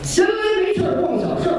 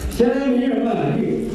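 First: Every sound is articulated clearly and accurately. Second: The sounds are slurred as if by a speech defect. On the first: The speaker calls it right. "咱们平时练功有这么几句话" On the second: The speaker calls it wrong. "嘴里有毛病，说这个"

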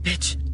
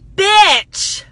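First: It is said in a frightened tone. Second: It is said in a happy tone.

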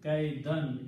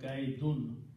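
First: The word ends with an 'an' sound. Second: The word ends with an 'un' sound. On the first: The noun is the object of the verb. "last two dhammas change into last two fatha. So this becomes kaidun" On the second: The noun is not the object of the verb. "instead of kaidun"

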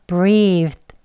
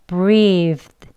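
No difference in how they are said.

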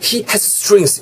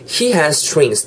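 First: Both s sounds are pronounced separately. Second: The two s sounds merge into one. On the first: The speaker calls it wrong. "다 발음하려면은 he has strings 어렵거든요" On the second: The speaker calls it right. "자연스럽게"

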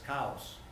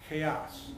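First: The word is said with a Spanish accent. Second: The word is said with an English accent.

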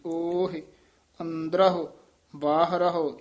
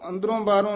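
First: Each word ends with an h sound and 'u'. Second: Each word ends with a nasal 'on' sound. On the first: The speaker calls it right. "ਸਿੱਧਾ ਹੀ ਹਾਹੇ ਹਨ ਔਂਕੜ ਲੱਗੇ ਹੋਏ ਨੇ" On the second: The speaker calls it wrong. "ਇਹਨੂੰ ਅੰਦਰੋਂ ਬਾਹਰੋਂ ਨਹੀਂ ਕਹਿ ਦੇਣਾ"

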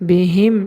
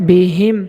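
Both takes have the same delivery.

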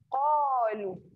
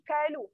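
First: The first consonant is a thick deep q. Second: The first consonant is a light front k. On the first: The speaker calls it right. "kena tebal" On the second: The speaker calls it wrong. "Tak boleh kalu"

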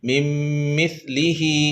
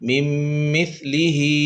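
Both takes have the same delivery.

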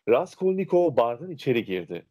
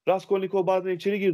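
First: It is read slowly, each word distinct. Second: It is read quickly, words rushed together. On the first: The speaker calls it right. "tane tane okuyacağız" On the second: The speaker calls it wrong. "değil"

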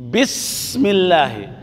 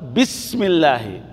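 First: The s sound is breathy, with air flowing. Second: The same.

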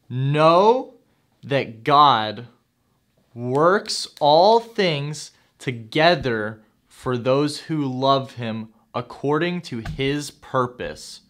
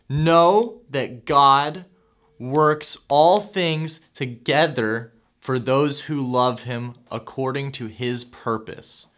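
First: It is said slowly. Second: It is said fast.

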